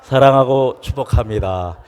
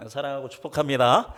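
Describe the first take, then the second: First: Loud heartfelt blessing. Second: 사랑하고 축복합니다 rattled off as a habit, no feeling; rote empty phrase. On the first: Pastor shows the heartfelt blessing to the church, loud. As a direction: say it with real love and blessing, loud. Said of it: "인사할까요". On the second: Pastor mocks the routine greeting, flat and mechanical. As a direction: say it like a weekly routine. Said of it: "이렇게 하면 이 말이 어떤 말이". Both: Shown as a demonstration.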